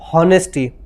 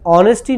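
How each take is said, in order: First: The word begins with an h sound. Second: The word begins without an h sound. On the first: The speaker calls it wrong. "not honesty" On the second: The speaker calls it right. "h over here will be silent"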